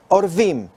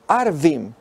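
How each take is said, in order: First: The word begins with an 'o' vowel. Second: The word begins with an 'a' vowel. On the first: The word means ravens. "esa sería la pronunciación que se ha mantenido tradicionalmente, que significa cuervos" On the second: The word means Arabs or Bedouins. "si lo pronunciamos de otra manera ... esto es a los árabes o beduinos"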